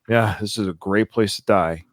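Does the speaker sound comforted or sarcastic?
sarcastic. It is said in a sarcastic tone.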